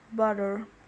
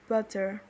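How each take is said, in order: First: The middle t is a quick tap. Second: The middle t is a full stop. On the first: "in North American English you say butter" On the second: "in reserved uh, pronunciation where you say butter, that involves a full t stop"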